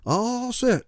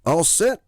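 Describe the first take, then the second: First: Put-on high old folks calling back; crew hollering. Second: Loud high call; holler. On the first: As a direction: call back like old passengers. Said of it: "the crew hollered". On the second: Acted. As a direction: holler it coyly. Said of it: "I hollered".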